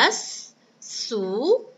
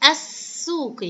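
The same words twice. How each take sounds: First: السوق broken up as as - soo - qi; very slow السوق, a pause after each syllable; split into syllables. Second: Said in the usual way. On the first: Shown as a demonstration. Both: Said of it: "هيا بنا نقطع هذه الكلمة".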